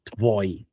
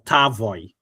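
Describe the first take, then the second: First: The t and v run together with no vowel. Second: An a-like vowel separates the t and v. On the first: The speaker calls it right. "It's Tvoy" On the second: The speaker calls it wrong. "I wasn't Tevoy or Tavoy"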